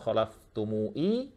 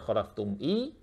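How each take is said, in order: First: The word ends with mu then i, no n. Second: The word ends khalaftum plus a bare i. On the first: "atau khalaftumui" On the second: "tidak dibaca khalaftum i"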